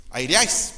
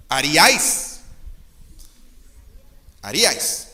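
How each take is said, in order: First: Haríais said as "aíriais", stress slipped off; wrong stress. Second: Haríais said carefully as a-rí-ais, stress on the í; haríais repeated slowly and deliberately, stressed ha-RÍ-ais; corrected pronunciation. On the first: Pastor stumbling over an archaic verb before correcting it. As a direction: misread haríais with the wrong syllables, quickly caught. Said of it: "perdón". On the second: Pastor fixing the archaic verb for the congregation. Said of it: "El acento está en la primera ahí". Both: Shown as a demonstration.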